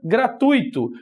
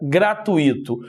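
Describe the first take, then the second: First: The u and i are joined in one syllable. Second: The u and i are split into two syllables. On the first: The speaker calls it right. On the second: The speaker calls it wrong.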